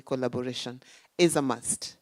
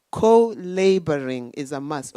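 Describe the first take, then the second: First: "collaboration" said properly, co-la-bo-RA-tion; plain corrected "collaboration"; corrected word. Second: "co-laboring" said as co-LAY-bor-ing, loud; louder mispronounced "co-laboring" for collaboration; slip of the tongue. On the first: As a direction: fix the slip calmly with "collaboration". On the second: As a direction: trip over "co-laboring" before correcting it. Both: Shown as a demonstration. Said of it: "Okay, collaboration is a must".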